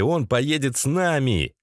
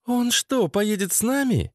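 First: Said in the usual way. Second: High-pitched, incredulous female question; questioning woman. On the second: Acted. Lena questions Sasha about his friend, high doubting voice. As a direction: ask it doubtfully in a raised pitch.

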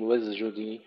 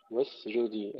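First: واسجدي with the س slipping toward ز; wrong take: let the س in واسجدي blur into a ز; faulty واسجدي, its س voiced like ز before ج; wrong pronunciation. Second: واسجدي with a clear, crisp س before ج; right take: keep the س in واسجدي clean, no ز; correct pronunciation. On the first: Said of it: "لا نقول واسجدي". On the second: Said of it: "السين قبل الجيم نحققها". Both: Shown as a demonstration.

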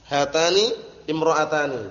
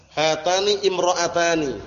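First: Said in the usual way. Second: Slow, deliberate model reading of hatani imra'atani. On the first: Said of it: "teacher repeats the example". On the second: Shown as a demonstration. Teacher reading hatani imra'atani slowly to the class, slow and clear. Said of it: "teacher models the example".

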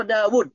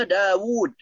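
First: داود with the waw cut short, the wrong reading. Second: داود with the waw drawn out long, the correct reading. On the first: Teacher showing students the wrong reading, short waw. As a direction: say داود quickly without lengthening the waw. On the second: Teacher showing students the correct reading, long waw. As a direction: stretch the waw in داود to "daawuud". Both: Shown as a demonstration. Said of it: "لابد من مد الواو".

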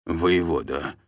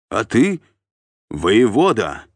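First: Subdued, submissive echo; downcast. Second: Loud, raised-pitch bark; barked correction. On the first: Scolded captive repeating the title, downcast and subdued. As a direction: repeat the title meekly, crestfallen. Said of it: "Сычок опять понурился". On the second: Sergeant correcting the captive's address, barked. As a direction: snap the title at him like a sergeant. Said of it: "рявкнул десятник". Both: A narrator's reading.

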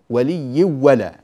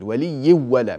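First: ولي ولا held slowly and louder, with the ن hum carried into the و of ولا; with nasal ghunna. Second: ولي ولا with a clean و and no nasal hum; without ghunna. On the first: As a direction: let the ghunna hum into ولا, slow and full. (بغنة ظاهرة وبتمهل) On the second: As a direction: merge straight into the و of ولا, no ghunna. (إدغام كامل بلا غنة) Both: Shown as a demonstration. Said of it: "من غير غنة".

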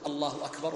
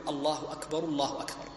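First: Single takbir, then a clear stop; separate takbir. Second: Two takbirs joined in one breath. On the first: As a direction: say it alone and pause. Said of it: "وتسكت". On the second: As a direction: run both phrases together without a pause. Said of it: "فيقول". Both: Shown as a demonstration.

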